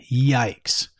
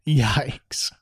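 First: Said in the usual way. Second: Breathy hushed repeat of yikes; whispered yikes. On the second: Real, not acted. Host whispering to viewers in dismay, whispered. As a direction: drop to a whisper in disbelief.

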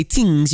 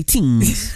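First: Said in the usual way. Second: "tings" with a thick island twang, th dropped to t. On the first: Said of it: "you gotta say tings". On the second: Shown as a demonstration. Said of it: "When you say tings, you gotta say tings".

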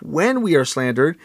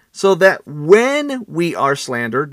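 First: When leaned on, not if; stress on when. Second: Said in the usual way. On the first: Shown as a demonstration. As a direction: hit the word when as a certainty. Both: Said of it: "not if".

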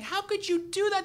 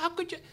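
First: High-pitched scolding, only mildly raised; mock screaming. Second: High, distraught reproach at normal volume; mock crying. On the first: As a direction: imitate a wife screaming in reproach. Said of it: "then she starts screaming". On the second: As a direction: imitate an inconsolable wife. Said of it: "she's crying, she's inconsolable".

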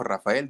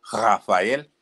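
First: Said in the usual way. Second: Rafael said slowly with the R that he can't pronounce; botched R. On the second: Retold or imitated. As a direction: mimic a kid who can't roll the R in Rafael. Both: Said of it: "no podía pronunciar la letra R".

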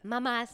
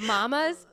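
First: MAMAS with short first vowel, like "mummas"; another way of saying mamas. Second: MAMAS said high and cutesy. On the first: Showing another way to say MAMAS, short-vowelled "mummas". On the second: Showing it depends how you say MAMAS, high and cutesy. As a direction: lift MAMAS up high, with sugary cheer. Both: Shown as a demonstration. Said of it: "depends on how you say it".

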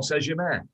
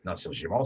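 First: Saint-Germain said in French, higher; French pronunciation. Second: Saint-Germain said in an anglicized way; wrong pronunciation. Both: Shown as a demonstration.

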